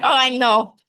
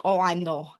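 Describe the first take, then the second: First: Louder, higher mock Russian mom; Russian accent. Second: Lightly imitated Russian mother; Russian accent. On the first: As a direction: imitate an emphatic Russian mother. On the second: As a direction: mimic a mom's Russian delivery. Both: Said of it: "She's very Russian".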